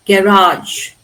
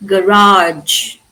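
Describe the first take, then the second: First: GARAGE as GA-rahj, weight on the first syllable; British first-syllable stress. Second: GARAGE as guh-RAHJ, first vowel reduced; American last-syllable stress. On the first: Teacher shows what British English will say, first-syllable stress. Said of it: "normally stressed on the first". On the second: Teacher shows what they say in American English, last-syllable stress. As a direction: lean on a long RAGE in GARAGE. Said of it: "stresses them on the last". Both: Shown as a demonstration.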